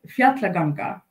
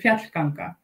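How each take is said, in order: First: The word has an extra middle syllable, four in all. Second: The word has no extra middle syllable, three in all. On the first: The speaker calls it wrong. "you said uh, Fjallaganga" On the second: The speaker calls it right. "but it's actually"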